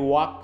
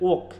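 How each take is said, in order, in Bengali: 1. এই স্বরধ্বনিটি একটি দীর্ঘ খোলা ধ্বনি। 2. এই স্বরধ্বনিটি দীর্ঘ খোলা ধ্বনি নয়। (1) "আমরা বলি ওয়াক, মানে একটু আহ, মানে লং ভাল সাউন্ডে বলি" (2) "কিন্তু এটা হচ্ছে ওক"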